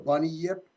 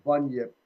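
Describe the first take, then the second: First: The name is drawn out as 'bunny yip'. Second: The name is said compactly as 'bunyip'. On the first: It is a playful, jokey version of the name. The speaker calls it wrong. "I like the funny way. ... I like to call it the bunny yip" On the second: It is the name as it is really said. The speaker calls it right. "but I think it's actually pronounced bunyip"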